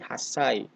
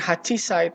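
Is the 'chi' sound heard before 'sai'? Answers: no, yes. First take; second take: no; yes. First: 'Chi' is dropped, giving a doubled consonant. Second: The full 'hachi' is said before 'sai'. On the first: The speaker calls it right. "tapi hasai" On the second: The speaker calls it wrong. "bukan hachisai"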